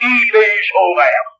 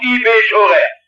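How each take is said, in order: First: Slow "I bin schon recht", lightly Swabian and complacent; mock the sinner's smug Swabian shrug; Swabian smugness. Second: "i bin schon recht" in light Swabian, falling and smug; Swabian saying. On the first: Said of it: "hin und sagt". (langsam, leicht schwäbisch: "I bin schon recht") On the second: Shown as a demonstration. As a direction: quote the Swabian phrase with a content shrug. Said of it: "Das ist doch schwäbische Weltanschauung". ("i bin schon recht" leicht schwäbisch, selbstzufrieden fallend)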